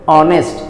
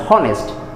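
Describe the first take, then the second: First: The h at the start is silent. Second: The h at the start is pronounced. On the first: The speaker calls it right. "You should read as honest" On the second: The speaker calls it wrong. "You should not read as honest, then you are wrong"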